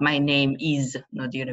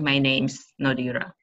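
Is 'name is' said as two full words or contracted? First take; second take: full; contracted. First: Is is said as a separate, stressed word. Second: Is joins the previous word as a contraction. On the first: The speaker calls it wrong. "it's not" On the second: The speaker calls it right. "it's a connected speech. We um, um, join with the previous word"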